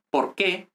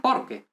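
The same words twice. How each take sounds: First: "por qué" with a rising, accented "qué"; stress on qué. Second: "porque" as one word, falling from "por"; weight the first syllable of "porque", weak "que"; stress on por. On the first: Teacher asking learners to notice the difference, stress on "qué". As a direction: land on the last syllable, "qué". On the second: Teacher asking learners to notice the difference, "porque" stressed at the front. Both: Shown as a demonstration. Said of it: "notice the difference between".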